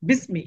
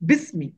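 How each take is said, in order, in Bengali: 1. একটি জোড়া শব্দ, সেই স্বরটি নীরব থাকে। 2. একটি জোড়া শব্দ, সেই স্বরটি নীরব থাকে।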